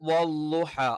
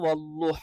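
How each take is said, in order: First: The consonant is a plain l. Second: The consonant is a dark l. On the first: "സാധാരണ രീതിയിൽ ഇനി ല ല എന്ന് പറയുമ്പം ... അത് തെറ്റാണ്" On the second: "അള്ളാ എന്ന് ഉച്ചരിക്കുന്ന ലാമിന്റെ മഖ്റജിൽ നിന്ന് ... തെറ്റാണ്"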